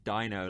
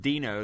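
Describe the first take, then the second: First: The first syllable rhymes with 'dye'. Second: The first syllable rhymes with 'bee'. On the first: The speaker calls it right. "but it's Dino like dinosaur" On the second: The speaker calls it wrong. "it's written Dino like the Beano in the subtitles"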